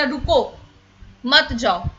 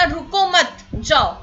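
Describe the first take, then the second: First: रुको, then a clear pause, then मत जाओ together; pause after रुको. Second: रुको मत run together, then a break before जाओ; pause after मत. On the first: Teacher showing how a comma changes meaning, pause after रुको. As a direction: break after रुको, keep मत जाओ as one phrase. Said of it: "उसमें comma अगर इधर का उधर लग गया". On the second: Teacher moving the comma to flip the meaning, pause after मत. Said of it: "कॉमा इधर का उधर हो गया". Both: Shown as a demonstration.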